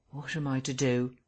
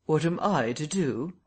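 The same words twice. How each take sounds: First: Subdued, sullen question; sullenly. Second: "I" emphasised, rising into the question; pointed echo with the weight on "I"; stress on I. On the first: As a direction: ask it sulkily, without pushing. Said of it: "he said sullenly". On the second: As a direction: throw the question back, leaning on "I". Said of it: "asked the Invisible Man". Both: A narrator's reading.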